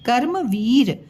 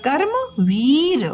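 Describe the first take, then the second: First: Said in the usual way. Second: कर्म वीर spoken slowly with a clear half र before म; slow model word. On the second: Shown as a demonstration. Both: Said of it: "म के ऊपर ये रेफ लगा".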